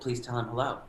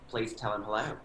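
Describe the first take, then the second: First: It is said in an elegant, refined voice. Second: It is said with an Australian accent.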